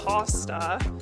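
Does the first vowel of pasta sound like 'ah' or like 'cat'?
ah. The first vowel is an open 'ah' sound. This is how Americans say it. "everything with an ah sound is ah down here"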